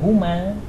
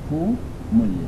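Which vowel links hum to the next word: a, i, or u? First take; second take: a; u. First: Hum is linked with an a vowel. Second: Hum is linked with a u vowel. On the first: The speaker calls it wrong. "Kenapa tak baca humil atau humal?" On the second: The speaker calls it right. "maka ini ada yang lebih fasih, disebut humul"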